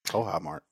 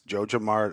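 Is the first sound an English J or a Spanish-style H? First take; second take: Spanish H; English J. First: The name begins with a Spanish-style H sound. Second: The name begins with an English J sound. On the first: "maybe it's Spanish" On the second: "it's Joja Mart"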